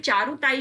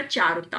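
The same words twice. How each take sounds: First: चारुताई ending "taa-ee"; "chaa-ru-taa-ee" for चारुताई; wrong long ending. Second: चारुता ending on "taa"; "chaa-ru-taa" for चारुता; correct ending. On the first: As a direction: add "ee" after चारुता to make चारुताई. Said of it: "चारुताई शब्द नहीं होता". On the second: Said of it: "चारुता होता है". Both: Shown as a demonstration.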